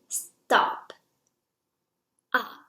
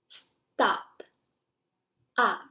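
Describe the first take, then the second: The two takes are said the same way.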